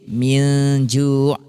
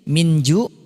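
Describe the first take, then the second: First: The n is blurred into a nasal hum. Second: The n is pronounced clearly and fully. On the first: The speaker calls it right. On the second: The speaker calls it wrong.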